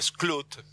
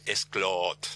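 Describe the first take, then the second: First: The double O is said as an 'oo' sound. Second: The double O is said as an 'oh' sound. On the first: It follows the English way of saying it. "como la O en inglés se dice como U, digo Skloot" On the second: It is adapted to Spanish. "si lo queremos castellanizar, que está permitido"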